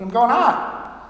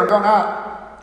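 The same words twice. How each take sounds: First: Slow Pittsburgh "out", said as "aht"; higher, drawn-out Pittsburgh accent. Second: Said in the usual way. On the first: Retold or imitated. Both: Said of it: "drop the Pittsburgh accent".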